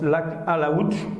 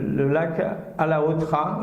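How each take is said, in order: First: The name ends in a short 'ch' sound. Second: The name ends in a full 'tra' syllable. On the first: The speaker calls it right. "ça se prononce lac Alaouch" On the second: The speaker calls it wrong. "ça ne se prononce pas comme ça"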